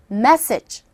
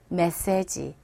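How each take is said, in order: First: The stress is on the first syllable. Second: The syllables are stressed evenly. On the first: The speaker calls it right. "이 첫 부분의 강세를 줘보세요" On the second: The speaker calls it wrong. "메시지 이렇게 발음을 하게 됩니다"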